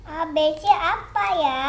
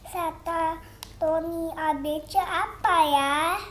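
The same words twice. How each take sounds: First: Said in the usual way. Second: Slow, careful question to a phone; talking to voice assistant. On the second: Real, not acted. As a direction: spell it out slowly for the assistant. Child asks the assistant slowly. (bicara pelan ke asisten suara)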